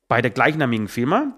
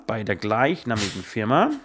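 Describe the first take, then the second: First: Said in the usual way. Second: Slow, low, formal dictation; official dictation voice. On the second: Shown as a demonstration. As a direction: read it out like an official document. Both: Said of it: "das war jetzt sehr offiziell".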